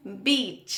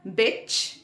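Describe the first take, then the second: First: "बीच" with a long ee. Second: "बिच" with a short i. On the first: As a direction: stretch the vowel in "बीच". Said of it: "Hindi शब्द बीच". ("बीच" में बड़ी ई की मात्रा) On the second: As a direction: keep the vowel brief in "बिच". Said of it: "आई है". ("बिच" में छोटी इ की मात्रा) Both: Shown as a demonstration.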